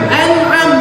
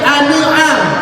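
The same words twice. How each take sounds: First: The consonant is held smoothly without a bounce. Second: The consonant is released with a bouncing echo. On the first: The speaker calls it right. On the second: The speaker calls it wrong.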